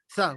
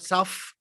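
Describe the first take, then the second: First: The word ends with a t sound. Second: The word ends with an f sound. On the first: The speaker calls it right. "South with a T, not F" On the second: The speaker calls it wrong. "not South"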